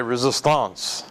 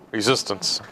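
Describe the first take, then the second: First: Put-on resistance in a French accent, slower, last syllable like "ahnce"; mock-French "resistance", ending drawn into "-ahnce"; French pronunciation. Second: Said in the usual way. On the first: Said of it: "as the French would say". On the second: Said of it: "Maybe not".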